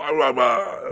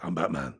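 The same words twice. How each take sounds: First: Exaggerated louder superhero growl; hammed-up growling caricature; Batman. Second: Low, restrained superhero voice; understated deep vigilante impression; Batman. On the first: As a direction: push the vigilante voice into a mangled roar. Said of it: "And then it just goes on". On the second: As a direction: drop low and keep it soft. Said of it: "Batman Begins, it's, it's there". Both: Shown as a demonstration.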